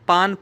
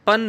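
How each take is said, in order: First: The syllable has a long, open vowel. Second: The syllable has a short, clipped vowel. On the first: The speaker calls it right. "आपने पान पढ़ना है" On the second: The speaker calls it wrong. "आपने पन नहीं पढ़ना"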